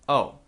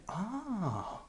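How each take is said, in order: First: It is said in a flat, neutral tone. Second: It is said in an interested tone. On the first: The news is new but of no concern. "you can just say totally flat or neutral" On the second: The news is wanted and interesting. "with a different tone"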